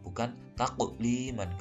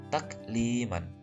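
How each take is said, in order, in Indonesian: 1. Bunyi k-nya dalam dan memantul. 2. Bunyi k-nya lembut dan hembus. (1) "Kalau taqu itu nanti huruf qaf" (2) "huruf kaf ini hames, bukan qalqalah atau memantul seperti qaf"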